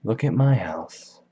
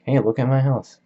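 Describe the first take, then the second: First: Slow, changed-voice imitation of the brag; mocking echo. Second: Higher, louder bragging call; boastful shout. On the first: Gatsby echoing Tom's brag, slow mocking copy. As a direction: echo Tom back mockingly, slowly. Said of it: "Gatsby's like". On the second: Retold or imitated. Tom to Gatsby before the hotel, loud bragging. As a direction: show off the house loudly. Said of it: "he's like".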